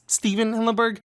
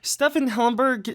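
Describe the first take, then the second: First: The name is said with its usual pronunciation. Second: The name is said with an unusual variant pronunciation. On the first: It is how the name is normally pronounced. The speaker calls it right. "It's Stephen Hillenburg" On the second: It imitates another person's mistaken pronunciation. The speaker calls it wrong. "it's obviously not correct"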